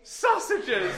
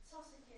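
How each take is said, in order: First: Higher, louder, laughing repeat; laughing exclaim. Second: Near-silent whisper turned away; whisper facing the wall. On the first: Real, not acted. Astonished the children heard the whisper: laughing exclaim. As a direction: cry the word out in amused delight. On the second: Shown as a demonstration. Turned away from the children for the hardest test: whisper. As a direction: breathe it toward the wall. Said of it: "make it really hard".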